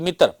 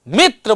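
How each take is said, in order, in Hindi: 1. पहले अक्षर पर कोई अतिरिक्त बलाघात नहीं है। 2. पहले अक्षर पर अतिरिक्त बलाघात है। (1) "न कि मित्र" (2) "मी मी जो है उस पर थोड़ा बलाघात करना पड़ता है, मित्र बोलना होता है"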